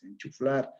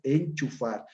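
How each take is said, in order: First: An l sound is added after the f. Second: No l sound comes after the f. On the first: The speaker calls it wrong. "Le aumenta una L" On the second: The speaker calls it right. "la palabra correcta es enchufar"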